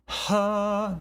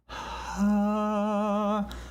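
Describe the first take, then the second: First: The voice starts suddenly with a sharp breathy onset. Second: The voice starts slowly with a soft breathy onset. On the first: "that's an aspirate abrupt" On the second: "if I slowly do it"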